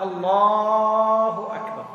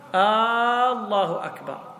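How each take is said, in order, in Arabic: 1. يُمَدّ صوت اللام في الله. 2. يُمَدّ الفتحة الأولى في الله. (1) "لو مد اللام تنعقد" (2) "إذا مد همزة الله تغير المعنى، صار استفهام"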